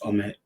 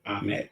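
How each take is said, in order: First: The name begins with an 'oh' vowel. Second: The name begins with an 'ah' vowel. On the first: The speaker calls it right. "but it's Omet. ... almost like omit" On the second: The speaker calls it wrong. "I think you pronounce it Amet"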